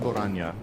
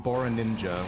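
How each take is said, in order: First: The name ends with a plain 'nya' sound. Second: The name ends with an added 'ninja' sound. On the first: This is how the speaker says the name. "So I call him Boranya" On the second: This is how the panel says the name. "which is definitely wrong because that, word, that letter isn't even in his name"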